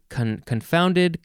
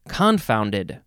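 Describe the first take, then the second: First: The stress is on the second syllable. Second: The stress is on the first syllable. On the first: "You can say confounded" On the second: "Or you can emphasize the first syllable"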